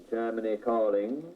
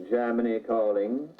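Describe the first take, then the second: The two takes are said the same way.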